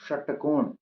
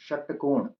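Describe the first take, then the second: The two takes are said the same way.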